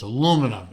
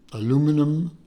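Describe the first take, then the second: First: The word is said with four syllables. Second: The word is said with five syllables. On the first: The speaker calls it right. "It's not that other pronunciation" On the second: The speaker calls it wrong. "I'm not going to say it how the uh, how the Euros say it"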